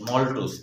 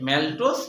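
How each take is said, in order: First: The first vowel sounds like 'o' in hot. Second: The first vowel sounds like 'a' in cat. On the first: "কেউ কেউ ম্যালটোজ না বলে মল্টোজ বলে" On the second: "ম্যালটোজ না বলে মল্টোজ বলে"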